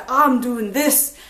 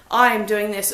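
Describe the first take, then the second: First: I'm said as "Ahm", open "ah" and slowed right down; Scottish "ah" for I. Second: Said in the usual way. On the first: Shown as a demonstration. Reviewer mimicking the book's written Scottish dialogue, slow "Ahm". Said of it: "and it would be A H". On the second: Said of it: "talking about myself, so".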